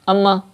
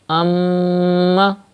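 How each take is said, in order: First: The nasal m sound is cut short. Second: The nasal m sound is held long. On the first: The speaker calls it wrong. "that's not correct. That means you are not doing gunna" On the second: The speaker calls it right. "read meme mushaddad with gunna, like this"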